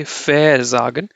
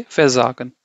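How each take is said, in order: First: "versagen" said slowly with VER emphasized and set apart; wrongly stressed prefix. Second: Said in the usual way. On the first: Shown as a demonstration. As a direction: stretch and punch the VER in "versagen". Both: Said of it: "they will not emphasize".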